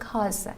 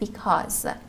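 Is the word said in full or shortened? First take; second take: shortened; full. First: The word is shortened, dropping its first syllable. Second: The word is pronounced in full, both syllables. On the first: It is casual everyday speech. The speaker calls it wrong. "In our daily speaking, we can say it like that" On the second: It suits a formal speaking test. The speaker calls it right. "you should make sure to fully pronounce the words"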